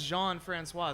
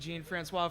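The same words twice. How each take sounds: First: Jean is said with a soft French sound. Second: Jean is said like the English name Gene. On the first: The speaker calls it right. "it was brought to my attention that it is Jean Francois" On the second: The speaker calls it wrong. "I was pronouncing it Ricky Jean Francois for a while"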